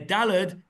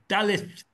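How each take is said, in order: First: The word has a 'd' sound in the middle. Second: The word ends with a 'th' sound. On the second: This is the Yemenite pronunciation.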